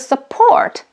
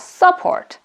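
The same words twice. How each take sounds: First: The stress is on the second syllable. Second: The stress is on the first syllable. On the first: The speaker calls it right. "we pronounce it as a support" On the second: The speaker calls it wrong. "not support"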